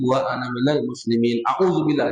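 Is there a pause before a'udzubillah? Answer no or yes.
no. The phrases run together without a pause. The speaker calls it wrong. "Nah, jangan"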